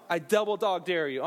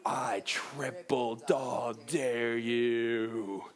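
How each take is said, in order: First: Said in the usual way. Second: Very slow, low, drawn-out slow-motion voice. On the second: Acted. Acting out the Christmas Story dare, in deep slow motion. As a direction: stretch every word deep and long, like slowed film. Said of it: "It's like in slow motion".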